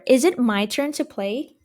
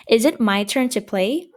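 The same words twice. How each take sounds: First: Said in the usual way. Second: "Is it my turn to play?" with the voice rising on "play"; question tune. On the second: Shown as a demonstration. Teacher shows students how a question sounds, rising tune. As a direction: let "play" lift up like a real question. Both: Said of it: "You see how the tone changes?".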